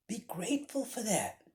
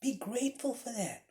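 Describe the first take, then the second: First: "grateful" leaned on, falling; stress on grateful. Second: "Be" hit higher, falling after; stress on be. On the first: Preacher urging students: "grateful" pressed. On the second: Preacher repeating his plea: "Be" driven home. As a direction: open hard on "Be". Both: Shown as a demonstration. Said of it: "repeated exhortation".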